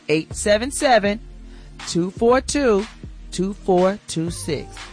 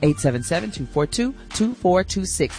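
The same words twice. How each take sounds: First: The number is read out slowly. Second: The number is read out quickly.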